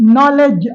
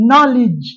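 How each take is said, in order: First: The last syllable has a vowel other than i. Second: The last syllable has a short i vowel. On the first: The speaker calls it wrong. "அல்ல" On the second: The speaker calls it right. "Short இ vowel"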